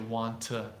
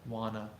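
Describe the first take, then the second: First: Both words are said fully and separately. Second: The words blend together into one reduced word.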